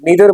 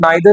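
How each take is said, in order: First: The first vowel sounds like 'ee'. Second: The first vowel sounds like 'eye'. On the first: The speaker calls it right. "नीदर बोलेंगे" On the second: The speaker calls it wrong. "मत बोलिएगा"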